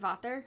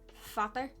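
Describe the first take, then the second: First: The word begins with a V sound. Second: The word begins with an F sound. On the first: The speaker calls it wrong. "Instead of vater" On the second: The speaker calls it right. "Instead of V, it's a F"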